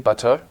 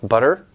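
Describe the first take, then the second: First: It is said with a British accent. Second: It is said with an American accent. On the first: "more British style" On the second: "talk like that, like butter"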